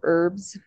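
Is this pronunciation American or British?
American. It is said with an American pronunciation.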